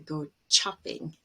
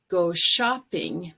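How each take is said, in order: First: The word begins with a stopped ch sound. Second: The word begins with a smooth sh sound. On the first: The speaker calls it wrong. "I often hear go chopping" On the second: The speaker calls it right.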